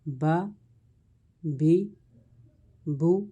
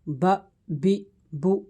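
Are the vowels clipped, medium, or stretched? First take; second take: medium; clipped. First: The vowels are neither long nor cut short. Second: The vowels are cut off short and jerky. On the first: The speaker calls it right. "दरमियानी हालत में पढ़ेंगे। न खींचेंगे न ज़्यादा झटका देंगे" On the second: The speaker calls it wrong. "ये झटका हो जाएगा, ऐसे नहीं पढ़ेंगे"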